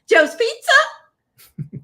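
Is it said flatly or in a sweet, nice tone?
sweet. It is said in a sweet, nice tone.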